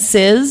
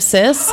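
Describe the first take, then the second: First: The word ends with a buzzing z sound. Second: The word ends with a hissing s sound. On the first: The speaker calls it wrong. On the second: The speaker calls it right.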